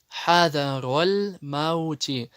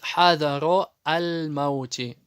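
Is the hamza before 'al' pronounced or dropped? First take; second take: dropped; pronounced. First: The hamza is dropped and the words run together. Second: The hamza is pronounced as a separate syllable. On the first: The speaker calls it right. "она не читается, потому что она пришла в связке слов" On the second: The speaker calls it wrong. "Многие допускают ошибку и читают"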